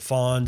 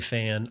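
First: The vowel sounds like the one in 'dawn'. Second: The vowel sounds like the one in 'can'. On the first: This is how the name's owner says it. The speaker calls it right. "She pronounces it Fawn" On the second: This is how some other people say it. The speaker calls it wrong. "Some people would say fan"

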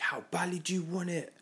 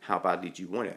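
First: It is said in a pumped-up, challenging way. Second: It is said as a calm, genuine question.

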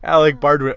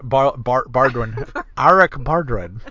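First: The name is said in a plain accent. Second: The name is said in a mock Chinese accent.

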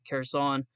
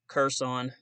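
First: It is pronounced in the standard way. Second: It is pronounced in a Southern American way. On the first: The speaker calls it right. "but it's actually Kherson" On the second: The speaker calls it wrong. "the southern American way of saying it"

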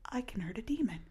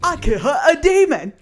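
First: It is said in the speaker's normal voice. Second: It is said in a put-on character voice. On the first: The speaker calls it wrong. "you had the time to do it, and you didn't do it" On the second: The speaker calls it right. "You gotta do it in the voice you said earlier"

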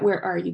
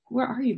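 First: It is asked in an angry, frustrated way. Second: It is asked in a curious, searching way.

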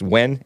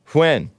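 First: It starts with a plain w sound. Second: It starts with a breathy hw sound. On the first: The speaker calls it wrong. "It's not pronounced when" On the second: The speaker calls it right. "WH sound"

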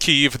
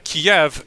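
First: The name is said the traditional Ukrainian way. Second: The name is said the Soviet-era Russian way. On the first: This is the local, traditional form of the name. The speaker calls it right. "That is the traditional Ukrainian language pronunciation of the place" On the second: This form was imposed from outside. The speaker calls it wrong. "Kiev was the Sovietization of it"

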